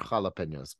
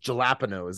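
First: It is said with a natural Spanish pronunciation. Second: It is said in an exaggerated, mocking accent. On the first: It shows how the word should be pronounced. The speaker calls it right. "can you just say it right?" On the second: It imitates diners who mispronounce the word on purpose. The speaker calls it wrong. "Or they're like, I don't want those jalapenos"

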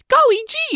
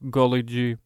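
First: It is said with lively, animated energy. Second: It is said in a flat monotone. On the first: The child character says it on screen. "the 9-year-olds be like" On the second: The voice-over narrator repeats it over the child. "he'll just be like"

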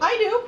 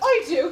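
First: It is said in the speaker's ordinary accent. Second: It is said in a put-on British accent.

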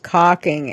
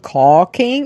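First: The first syllable sounds like 'cock'. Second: The first syllable sounds like 'caught'. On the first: This sounds like a word for male genitalia. The speaker calls it wrong. "it was caulking. And it did not have the same pronunciation because it's basically the male genitalia" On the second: This is the word for the sealing material. The speaker calls it right. "wasn't caulking"

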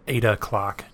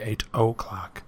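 First: The T at the end of eight is dropped. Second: The T at the end of eight is clearly pronounced. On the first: "I said 8 o'clock" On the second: "you say the T in 8"

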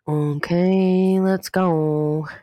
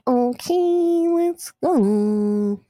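First: It is said flat and deadpan. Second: It is said in an exaggerated, cartoonish way.

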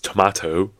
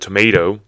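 First: It is said with a British accent. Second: It is said with an American accent. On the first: "and then it's tomato, right, in British English" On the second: "it's a tomato in American English"

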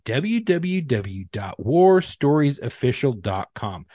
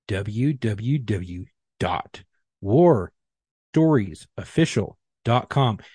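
First: It is said at a normal speed. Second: It is said more slowly.

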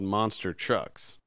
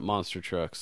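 First: The stress falls on the word trucks. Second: The stress falls on the word monster. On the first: The trucks are actual monsters. The speaker calls it right. "so it should be called" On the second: It names the ordinary kind of big truck. The speaker calls it wrong. "Not monster trucks, like how we say it"

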